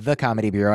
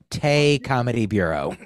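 First: The first word sounds like 'thuh'. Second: The first word sounds like 'tay'. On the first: The speaker calls it wrong. "I believe it's not pronounced The Comedy Bureau" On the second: The speaker calls it right. "I believe it's Tay Comedy Bureau"

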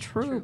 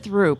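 First: The name begins with a plain T sound. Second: The name begins with a TH sound. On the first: This is how the locals say it. The speaker calls it right. "no, it's Troop" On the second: This is how it was said on a TV show. The speaker calls it wrong. "He said Throop"

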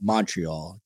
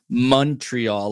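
First: The first syllable is an open 'mon' sound. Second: The first syllable sounds like the start of money. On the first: The speaker calls it wrong. "not Montreal, Montreal, Jersey style" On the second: The speaker calls it right. "If you want to sound like a native, you pronounce it Montreal, like money, honey"

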